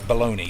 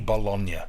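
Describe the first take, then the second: First: The word is said like baloney, ending in an ee. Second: The word is said like bolonya, ending in nya. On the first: This is the American name for the meat. "Why do you call it bologna in America?" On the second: This is the Italian name for the city. "People in Italy say Bologna"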